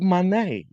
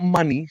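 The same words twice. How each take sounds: First: The name is said as mo-nay. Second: The name sounds like the word money. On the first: The speaker calls it right. "She's money" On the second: The speaker calls it wrong. "She's not money"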